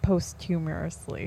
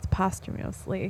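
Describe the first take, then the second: First: The word is sounded out as it is spelled. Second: The word has its usual standard pronunciation. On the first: The speaker calls it wrong. "I think he said like posthumously. Because that's what it looks like" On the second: The speaker calls it right. "it's posthumously"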